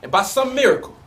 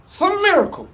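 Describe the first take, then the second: First: Said in the usual way. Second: SOME MIRACLE lifted much higher, in awe; emphatic wonder. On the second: Acted. Lover amazed she chose him, "some miracle" pitched high in wonder.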